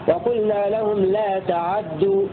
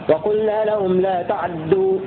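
Both takes have the same delivery.

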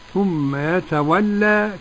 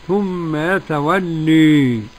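First: The final vowel is an open, plain a. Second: The final vowel leans strongly toward e. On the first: "بالفتح ... كالجماعة" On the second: "بالإمالة الكبرى"

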